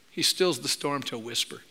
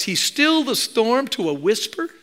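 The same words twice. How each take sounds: First: Softer and lower, letting the storm die down; hushed storm. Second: Said in the usual way. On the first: Shown as a demonstration. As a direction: drop to a hush as the storm calms. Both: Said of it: "Can you hear the imagery?".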